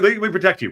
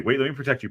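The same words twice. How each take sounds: First: High and loud, jokey; loud mock plea. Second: Said in the usual way. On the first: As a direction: cut in loudly to shield him. Repeated plea, louder first.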